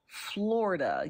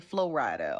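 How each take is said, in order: First: "Florida" drawn out as written; pronounced as spelled. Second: "Florida" deliberately distorted, stretched into extra sounds; mock a wrong way of saying "Florida"; mock mispronunciation. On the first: Explaining spelling to viewers, "Florida" said as written. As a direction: sound out "Florida" in the standard way. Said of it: "Like it's spelled". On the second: Showing viewers what she won't say, "Florida" mispronounced on purpose. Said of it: "we're not calling it". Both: Shown as a demonstration.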